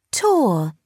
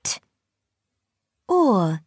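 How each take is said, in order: First: "Tor" said as one blended word. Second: "T" and "Or" said as separate sounds; sounding out words. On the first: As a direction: join the sounds into "Tor". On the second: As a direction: split "T. Or." into single phonics sounds. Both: Shown as a demonstration. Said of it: "Blend the sounds".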